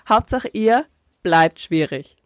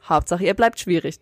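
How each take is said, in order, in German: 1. Die Phrase wird langsamer gesprochen. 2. Die Phrase wird hastig gesprochen. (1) "Du musst es anders sagen. Du musst sagen" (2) "Weil du hast es so ... es ist zu schnell"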